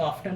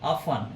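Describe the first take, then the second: First: The word is said with a t sound. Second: The word is said without a t sound. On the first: "इसको ऑफ्टन भी बोल देते हैं" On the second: "next है दोस्तों ऑफन"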